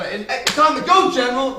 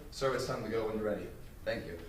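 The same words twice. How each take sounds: First: Yelled out. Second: Quiet, measured and respectful; proper calm address. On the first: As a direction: shout it out with no protocol. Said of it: "It's not like you just yell it out". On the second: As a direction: speak it softly, the way a soldier should address a superior. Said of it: "the way it should have been said". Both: Shown as a demonstration.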